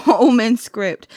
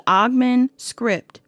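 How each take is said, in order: First: Omen said with no g, OH-men; corrected pronunciation. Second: Ogman said with the g sounded; mispronounced. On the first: Card reader correcting herself for viewers, corrected Omen. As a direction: say Omen slow and loud with a long O. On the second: Card reader slipping on the script's name, mispronounced Ogman. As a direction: say Ogman as OG-man, slowly. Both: Real, not acted. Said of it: "Damn, I'm sorry, y'all".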